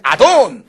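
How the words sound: It is said in an irritated, sharp tone.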